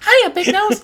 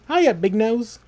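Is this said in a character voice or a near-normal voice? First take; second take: character voice; near-normal. First: It is said in an exaggerated character voice. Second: It is said in a near-normal voice. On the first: The speaker calls it right. "There it is" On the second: The speaker calls it wrong. "Oh, I can't do that voice"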